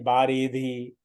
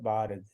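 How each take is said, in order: First: The final i vowel is fully sounded. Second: The final i vowel is barely sounded. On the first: The speaker calls it wrong. "नहीं बारिधि" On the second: The speaker calls it right. "इसको हमको बिल्कुल हल्के से पढ़ना है"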